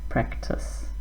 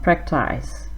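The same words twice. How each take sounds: First: The ending of the word is short and small. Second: The ending of the word is long and full. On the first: The speaker calls it right. "short at the end, a small sound" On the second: The speaker calls it wrong. "not practice"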